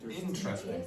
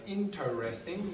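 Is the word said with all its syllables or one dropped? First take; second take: one dropped; all syllables. First: One unstressed syllable is dropped. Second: Every syllable is pronounced in full. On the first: The speaker calls it right. "you pronounce it as" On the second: The speaker calls it wrong. "You don't pronounce this as"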